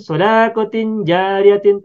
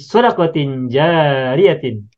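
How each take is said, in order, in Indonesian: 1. Vokal setelah d panjang. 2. Vokal setelah d pendek. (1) "kita tidak boleh mengatakan" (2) "Dalnya pendek"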